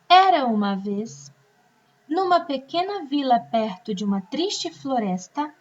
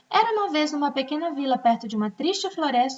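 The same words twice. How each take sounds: First: There are short pauses between the phrases. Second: It is read straight through without any pause. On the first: The sentence makes sense. The speaker calls it right. "faço uma pausa onde tem a vírgula" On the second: The sentence is hard to understand. The speaker calls it wrong. "Vou ler esse parágrafo sem pausa nenhuma"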